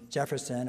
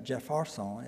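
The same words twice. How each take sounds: First: The name has a standard, non-local pronunciation. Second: The name has the local Louisiana pronunciation.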